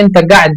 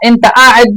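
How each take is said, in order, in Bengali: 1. দ্বিতীয় শব্দটি 'g' ধ্বনি দিয়ে শুরু। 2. দ্বিতীয় শব্দটি গ্লটাল স্টপ দিয়ে শুরু। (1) "কফ মানে গয়েন" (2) "একটা হলো আ"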